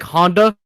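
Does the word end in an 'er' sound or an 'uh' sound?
uh. The word ends in a plain 'uh' vowel. "instead of saying like Honda"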